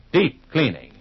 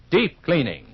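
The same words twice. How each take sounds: The two takes are said the same way.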